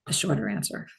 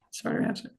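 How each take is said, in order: First: Said in the usual way. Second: Soft playful whisper. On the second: Shown as a demonstration. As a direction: whisper it to yourself, amused. Whispers own phrase as a joke.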